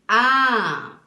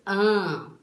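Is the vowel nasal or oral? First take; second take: oral; nasal. First: The vowel is open with air through the mouth. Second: The vowel is nasal with air through the nose. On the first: "Quando a gente abre bem a nossa boca e deixa o ar sair" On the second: "Se a voz sair pelo nariz, meio nasal"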